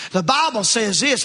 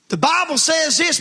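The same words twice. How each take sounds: First: Mock self-righteous. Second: The Bible says this, raised high on Bible; pointed question. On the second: Shown as a demonstration. Preacher asks if Bible quotes come in love, high Bible. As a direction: lift Bible up high and press it. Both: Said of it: "are you speaking that in love?".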